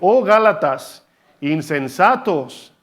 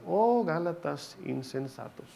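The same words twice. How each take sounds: First: It is shouted with indignation. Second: It is said calmly, without shouting.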